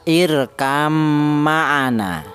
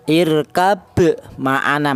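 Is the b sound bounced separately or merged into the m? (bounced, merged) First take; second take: merged; bounced. First: The b merges fully into the following m. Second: The b is pronounced separately with a bounce. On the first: The speaker calls it right. "ba ini diidghamkan ke huruf mim. Cara bacanya irkam ma'ana" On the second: The speaker calls it wrong. "qalqalah malah salah, irkab ma'ana malah salah"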